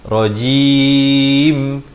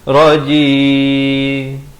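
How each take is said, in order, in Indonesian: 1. Bibir menutup sepenuhnya pada bunyi m di akhir. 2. Bibir tidak menutup sepenuhnya di akhir. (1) "Mestilah rajim, lalu ya dulu, akhir baru masuk mim" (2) "tak rapat, tak sempurna"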